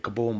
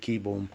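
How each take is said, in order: First: The first syllable sounds like 'kah'. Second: The first syllable sounds like 'key'. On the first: The speaker calls it wrong. "I say Kaboom" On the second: The speaker calls it right. "but it's actually Keyboom"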